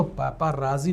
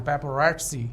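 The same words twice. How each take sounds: First: Teacher shows पेपराजी as the way not to say it; wrong pronunciation. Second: पेपरैट्सी said with a clear ts sound; teacher gives पेपरैट्सी as the right way, ts not z; correct pronunciation. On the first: Teacher to students, showing the wrong version, plainly said. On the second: Teacher to students, modelling the right version clearly. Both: Shown as a demonstration. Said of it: "इसको पेपराजी नहीं बोलना है".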